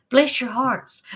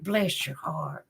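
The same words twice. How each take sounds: First: Sweet blessing. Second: Slow, hushed and sweet; tender whispered blessing; soft sweet blessing. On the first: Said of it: "I mean it sweet". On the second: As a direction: bless them gently under your breath. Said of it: "I say that all the time". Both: Shown as a demonstration.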